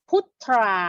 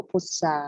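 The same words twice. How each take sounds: First: "พุทรา" as phut-thraa, with the r sounded; wrong cluster reading. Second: "พุทรา" as phut-saa, with no r. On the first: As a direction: show the mistaken "พุทรา" with a thr cluster. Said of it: "เราจะไม่ออกเสียง". (ออกเสียง "พุทรา" ผิดเป็น พุด-ทรา แบบควบ ร) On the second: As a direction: say "พุทรา" with ทร turned into s. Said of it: "ออกเสียงเป็นซอโซ่". (ออกเสียง "พุทรา" เป็น พุด-ซา) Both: Shown as a demonstration.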